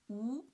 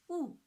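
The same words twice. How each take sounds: First: The pitch rises from middle to high. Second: The pitch falls sharply from high to low. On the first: "the second tone, from three to five" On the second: "the fourth tone"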